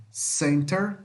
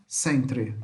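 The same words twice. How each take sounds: First: "center" with final -ter, tune going up; American -ter ending. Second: "centre" with final "tre", lower, tune falling; British-spelling -tre ending. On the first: ("center" com "ter" no final, entonação subindo) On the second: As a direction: say "centre" as spelt, tre last. ("centre" com "tre" no final, entonação descendo) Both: Shown as a demonstration. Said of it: "Mesma coisa".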